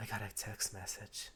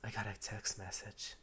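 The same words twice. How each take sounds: First: It is said in a put-on character voice. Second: The same.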